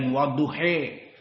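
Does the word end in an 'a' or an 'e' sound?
e. The word ends in an 'e' sound, Betawi-style.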